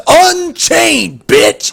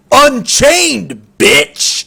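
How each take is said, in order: First: Higher, louder smug jeer, relishing it; imitating a cocky player's put-down; cocky taunt repeated. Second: Loud, higher sneering taunt with a spat-out bitch; mock-cocky gamer trash talk. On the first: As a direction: replay the insult with even more swagger. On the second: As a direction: throw it at him like a smug insult. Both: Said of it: "He was so cocky when he said it".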